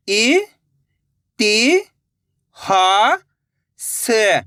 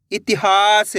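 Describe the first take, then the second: First: इ, ति, हा drawn out and rising, स falling to close; syllable by syllable. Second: Said in the usual way. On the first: Shown as a demonstration. Teacher breaking a word for learners, syllable by syllable. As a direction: sound out इ, ति, हा, स singly. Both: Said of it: "एक अक्षर का उच्चारण करके".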